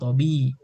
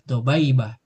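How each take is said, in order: First: A short i vowel follows the b sound. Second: An ai vowel follows the b sound. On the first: The speaker calls it right. "tapi tobi" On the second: The speaker calls it wrong.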